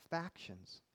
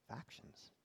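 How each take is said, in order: First: Said in the usual way. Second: Whispered. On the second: Shown as a demonstration. Repeats the word, then whispers it.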